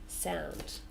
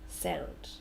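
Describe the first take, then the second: Both takes have the same delivery.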